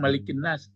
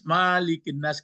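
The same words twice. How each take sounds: First: The first vowel of malik is kept short. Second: The first vowel of malik is drawn out long. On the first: The speaker calls it right. "Itu memang malikin nas" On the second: The speaker calls it wrong. "kan nggak ada. Itu nggak boleh"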